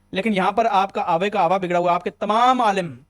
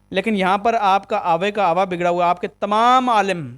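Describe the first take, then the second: Both takes have the same delivery.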